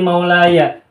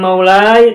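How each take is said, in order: First: The final ya is voiced, ending in 'aya'. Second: The final ya is silent, ending in 'ai'. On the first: The speaker calls it right. "tetapi maulaya" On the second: The speaker calls it wrong. "Bukan maulai"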